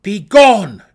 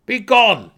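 First: Very loud, high order; commanding shout. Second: Loud, high command of a drow; demanding shout. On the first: Drow pointing goblins down the side passage, loud command. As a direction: blast the command at them. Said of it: "Driz commanded". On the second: Drow warrior ordering the goblins away, loud shout. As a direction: bark the order down at them. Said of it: "Driz demanded". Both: A narrator's reading.

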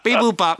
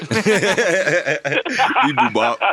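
First: High clipped robot beeps. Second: High, slow, laughing robot bleep. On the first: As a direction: beep it out like a toy robot. Repeats robot bleep. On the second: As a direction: drag out the beeps, high and giggling. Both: Pretend.

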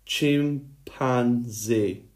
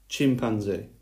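First: Each syllable stretched far apart; very slow breakdown. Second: Said in the usual way. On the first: Shown as a demonstration. Teacher breaking a word down for pupils, very slowly. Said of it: "I'm gonna break it down slowly for you". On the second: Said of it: "Let me say that word one more time".

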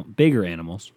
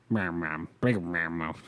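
First: Said in the usual way. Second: Slow, low, slurred mumble; mumbling. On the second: Real, not acted. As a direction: mumble the words out slowly. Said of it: "Jesus, [name], can you fucking say some words?".

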